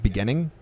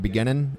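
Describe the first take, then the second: First: The final g sound is pronounced. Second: The final g sound is dropped. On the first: "instead of beginning" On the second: "dropping the G at the end of words"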